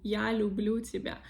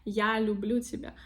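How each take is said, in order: The two takes are said the same way.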